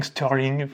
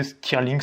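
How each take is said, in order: First: Stirling with an English "eur" vowel, "steur-ling"; English-style Stirling. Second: Stirling said the French way, clear i as in "stir-ling"; French-style Stirling. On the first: Unsure math teacher retries the name in English style, tentative. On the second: Math teacher tries the name the French way first, plain French reading. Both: Shown as a demonstration. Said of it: "je suis pas sûr de le prononcer exact".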